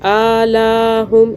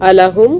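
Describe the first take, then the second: First: The sounds of the word are stretched out. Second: The sounds of the word are kept short. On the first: The speaker calls it wrong. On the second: The speaker calls it right.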